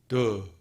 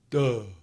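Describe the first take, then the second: Both takes have the same delivery.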